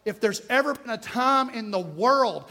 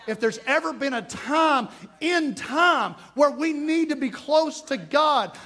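First: Said in the usual way. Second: Slow climbing preacher's shout; preaching shout. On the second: Real, not acted. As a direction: raise it into a preached cry. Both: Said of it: "repeated with force".

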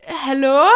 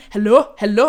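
First: Retold call through the door, a bit louder; startled hallo shout, mildly raised. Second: Insistent hallo from outside the door, louder; mock call of the man at the door. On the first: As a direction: call out to whoever is outside. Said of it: "står og råber". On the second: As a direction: imitate the man banging and calling. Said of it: "han blev bare ved med at sådan".

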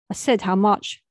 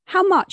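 First: A daughter repeats her question to her mum, very serious. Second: Put-on a high, loud girlish demand; a thirteen-year-old girl asks her mum how much, high-pitched and loud. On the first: Acted. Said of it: "very serious this time". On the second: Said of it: "in her thirteen-year-old voice".

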